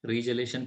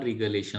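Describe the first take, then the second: First: The middle consonant sounds like 'j' in 'jam'. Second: The middle consonant sounds like 'g' in 'go'. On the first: "रिजलेशन किंवा रिगलेशन असं काही वेळेला म्हटलं जातं" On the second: "किंवा रिगलेशन असं काही वेळेला म्हटलं जातं"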